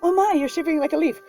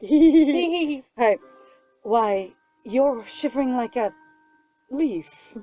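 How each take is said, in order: First: It is said in one gasping breath, without pausing. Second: There is a pause before the word leaf.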